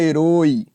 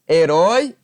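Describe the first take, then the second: First: The stressed diphthong has a closed vowel. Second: The stressed diphthong has an open vowel. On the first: The speaker calls it wrong. "e não herói" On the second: The speaker calls it right.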